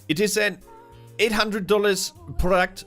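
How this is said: It is said in a put-on imitating voice.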